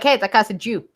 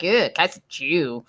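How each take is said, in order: First: It is said in a plain, neutral tone. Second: It is said with a disgusted sneer.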